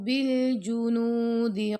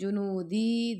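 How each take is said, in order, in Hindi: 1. d छोटा है, उसके बाद स्वर लंबा नहीं होता। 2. d लंबे खिंचे हुए स्वर के साथ लंबा होता है।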